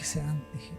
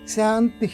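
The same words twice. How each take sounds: First: It is said very softly, inwardly. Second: It is said somewhat more softly. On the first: "మూడోది బాగా లోపలికి" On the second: "రెండోది కొంచెం తక్కువ స్థాయిలో"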